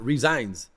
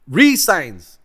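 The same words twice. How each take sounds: First: The middle consonant is a buzzing z sound. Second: The middle consonant is a clear s sound. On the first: He quit his position. The speaker calls it wrong. "not resigns" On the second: He signed a new contract with the team. The speaker calls it right. "Resigns, not resigns"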